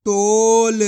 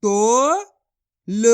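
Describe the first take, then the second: First: Said in the usual way. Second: तोल split slowly into तो and ल; syllable by syllable. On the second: Shown as a demonstration. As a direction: sound out तोल slowly in parts. (तोल को टुकड़ों में धीरे बोलो) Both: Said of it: "तो मिलके बन जाएगा".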